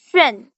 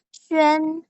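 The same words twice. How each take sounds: First: The pitch falls sharply from high to low. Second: The pitch stays high and level.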